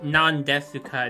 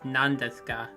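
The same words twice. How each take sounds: First: The U after S is clearly pronounced. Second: The U after S is dropped. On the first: The speaker calls it wrong. "it's not" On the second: The speaker calls it right. "That's also the case for certain consonants"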